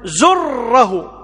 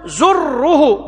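First: زره said very slowly, ending in an open a; zurra with fatha. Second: زره said very slowly, ending in a rounded u; zurru with damma. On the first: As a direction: drag out زره with a final fatha. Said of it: "فيجوز أن تقول". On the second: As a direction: drag out زره with a final damma. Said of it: "ويجوز أن تقول". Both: Shown as a demonstration.

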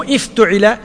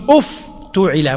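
First: افتعل said iftuʕila, opening i not u; افتعل with kasra on the first letter, the reading to avoid; wrong vowel pattern. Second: افتعل said uftuʕila, first two vowels u, slow and careful; افتعل with damma on alif and taa, drawn out; correct vowel pattern. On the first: Teacher contrasts the wrong reading of افتعل, iftuʕila. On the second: Teacher shows the right reading of افتعل, uftuʕila. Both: Shown as a demonstration. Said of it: "مو افتعل".

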